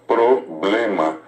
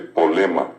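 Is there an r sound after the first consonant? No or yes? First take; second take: yes; no. First: The first syllable has an r after the p. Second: The first syllable has no r after the p.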